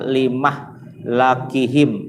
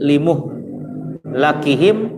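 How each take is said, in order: First: The m has an a, the l an a. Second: The m has a u, the l an a. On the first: The state of their destruction was appointed. "Kalau syu'bah fathah mim sama lam" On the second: The process of their destruction was appointed. "bidomil mim wa fathil lam"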